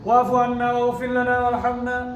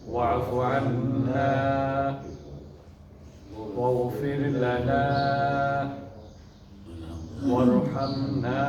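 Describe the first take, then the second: First: The phrases run together without any pauses. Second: Each short phrase is followed by a pause. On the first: The requests are rattled off impolitely. The speaker calls it wrong. "আপনি যদি এভাবে বলতে থাকেন" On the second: Each request is made separately and politely. The speaker calls it right. "এই যে আমি থেমে থেমে বললাম, এটা কিন্তু ওয়াকফা।"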